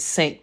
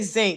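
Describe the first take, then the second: First: The word begins with a hissing s sound. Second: The word begins with a buzzing z sound. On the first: It sounds educated. The speaker calls it right. "the right way" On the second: It sounds street and uneducated. The speaker calls it wrong.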